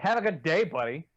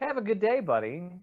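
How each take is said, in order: First: It is said in a cold, hostile tone. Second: It is said in a warm, friendly tone. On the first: A dismissive way of telling someone off. "I guess it's tone" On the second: A sincere wish for a nice day. "that's that's good"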